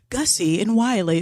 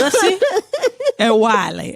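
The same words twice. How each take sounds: First: The names are said in a standard, non-Southern way. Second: The names are said in a Southern way. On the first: "they didn't say Gussie and Wiley" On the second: "They said"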